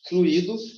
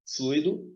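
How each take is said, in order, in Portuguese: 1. O 'u' e o 'i' são separados, em duas sílabas. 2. O 'ui' é falado junto, como uma sílaba só. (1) "Fluido é a flexão do verbo fluir" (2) "fluido é de tombo, é o líquido do carro"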